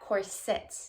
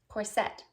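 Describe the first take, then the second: First: The stress is on the first syllable. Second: The stress is on the second syllable. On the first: This is how UK and German followers say it. "Putting the emphasis on the first syllable with the soft I in the second syllable" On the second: This is how the speaker used to say it. "Putting the emphasis or the accent on the second syllable"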